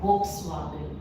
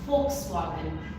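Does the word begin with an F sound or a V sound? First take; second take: V sound; F sound. First: The word begins with a V sound. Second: The word begins with an F sound. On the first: The speaker calls it wrong. "It is not" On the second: The speaker calls it right. "इसको हम लोग प्रोनाउंस करते हैं फ से"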